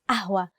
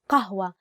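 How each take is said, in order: First: The word begins with a glottal catch, no q. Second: The word begins with a deep q sound. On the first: This is the easier everyday form. "to make it easier to pronounce, we use the letter a" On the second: This is the formal standard form. "the actual standard Arabic word is qahwa, with the letter qaf"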